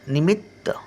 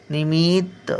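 First: The first vowel is said short and quick. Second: The first vowel is drawn out long. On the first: The speaker calls it right. "पटकन उच्चार येतो" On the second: The speaker calls it wrong. "नाही"

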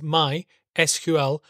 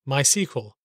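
First: The 'SQL' part is spelled out as separate letters. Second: The 'SQL' part is said as the word 'sequel'. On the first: This is the official pronunciation. The speaker calls it right. "the official way to pronounce these five letters is" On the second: This is not the official pronunciation. The speaker calls it wrong.

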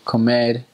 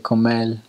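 First: The final r is pronounced as an r. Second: The final r is changed, capital city style. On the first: "instead of saying, let's say, comer" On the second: "Or in the capital, they say"

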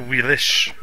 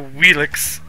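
First: The word ends with an 'sh' sound. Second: The word ends with a 'ks' sound. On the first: The speaker calls it right. "it's a Wheelish. the X is pronounced as an SH" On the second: The speaker calls it wrong. "That's why it's not a Wheelix"

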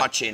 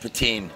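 First: It is said in a Northern Irish pronunciation. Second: It is said softly in a western Gaeltacht pronunciation. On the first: "That's the way to say it up in Northern Ireland" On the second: "softly spoken poutine, it'd be the more Gaeltacht"

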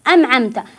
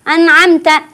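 First: The n is pronounced as an m. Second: The n is merged into the next sound. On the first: "فالبعض يقرأ النون بالميم" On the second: "أو يدغم"

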